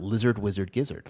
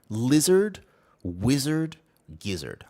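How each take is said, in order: First: The phrase is said quickly. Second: The phrase is said at a normal speed. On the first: "I'm going to say it fast now" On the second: "I'm going to say it again"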